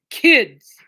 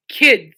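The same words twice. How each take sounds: First: Fed-up shout at the pets; loud weary scold; exasperated call. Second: One loud fed-up word to the pets; loud sigh-word at the animals; exasperated call. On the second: Scolding pets mid-stream. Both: Real, not acted.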